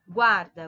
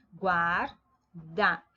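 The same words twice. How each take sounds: First: Said in the usual way. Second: "Guarda" split GUAR, pause, DA; syllable by syllable. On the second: Shown as a demonstration. Teacher showing a two-syllable word, "Guarda" broken apart. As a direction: say "Guarda" in two separate beats. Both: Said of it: "formada por duas sílabas".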